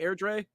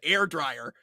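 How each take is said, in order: First: The name ends with a 'dray' sound. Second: The name ends with a 'dryer' sound. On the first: The speaker calls it right. "Something like something along those lines" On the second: The speaker calls it wrong. "That was the most American way you could have said that"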